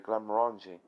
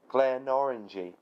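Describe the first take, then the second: First: The M is sounded, giving 'Glen-more-anjee'. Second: The M is dropped, giving 'Glen Orangey'. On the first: The speaker calls it right. "Glen, pronounce more, and the G bit, N G, pronounced as a J" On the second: The speaker calls it wrong. "thinking the M is silent and that is actually the word orangey"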